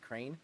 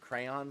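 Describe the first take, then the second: First: The word is said with one syllable. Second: The word is said with two syllables. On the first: "like like one syllable" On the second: "instead of saying crayon"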